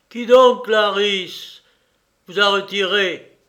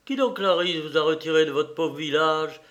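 First: Loud, higher-pitched demand; indignant, emphatic questioning; indignant reproach. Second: Said in the usual way. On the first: Acted. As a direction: challenge her forcefully, voice raised. Brother reproaches Clarisse, first take.

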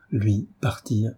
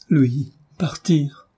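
First: Said in the usual way. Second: Slow, torn cry of disbelief; heartbroken. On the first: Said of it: "avec lequel Marie prononça". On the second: A narrator's reading. Marie to the doctor, heartbroken and slow. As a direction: let the two words break your heart, slowly. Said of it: "À l'accent déchirant".

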